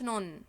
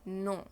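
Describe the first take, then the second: First: The word ends with a clear n sound. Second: The word ends without a clear n sound. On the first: The speaker calls it wrong. "ما بنقولش نون، مفيش حاجة اسمها كده" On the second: The speaker calls it right. "اسمها نو نو"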